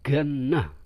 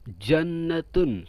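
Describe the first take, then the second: First: The word begins with a g sound. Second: The word begins with a j sound. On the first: This is the Egyptian colloquial form. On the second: This is the standard form.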